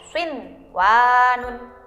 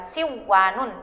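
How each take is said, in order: First: The n sound is clearly pronounced before w. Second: The n sound is merged into the w. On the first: The speaker calls it right. "tapi dibaca swinwanun" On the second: The speaker calls it wrong. "bukan siwanun"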